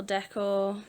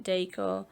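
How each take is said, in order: First: "decor" said as DECK-or; short-E pronunciation. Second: "decor" said as DAY-core, questioning; long-A pronunciation. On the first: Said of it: "I don't know if I pronounce that properly". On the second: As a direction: say "decor" with its first syllable like day. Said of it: "Or is it decor?". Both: Shown as a demonstration.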